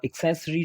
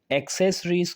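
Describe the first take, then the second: First: British "एक्सेसरी" starting with short ik; British accent version. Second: American "एक्सेसरीज" starting with open ek; American accent version. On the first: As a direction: give the British accent form. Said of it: "वो इसका British accent है". (British लहजे में "एक्सेसरी") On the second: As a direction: give the American accent form. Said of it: "उसमें कहा जाता है जो अमेरिकन". (अमेरिकन लहजे में "एक्सेसरीज") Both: Shown as a demonstration.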